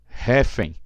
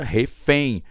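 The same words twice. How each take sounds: First: The stress is on the first syllable. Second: The stress is on the last syllable. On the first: The speaker calls it wrong. "regra base vai na dois" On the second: The speaker calls it right. "a vogal um é mais forte"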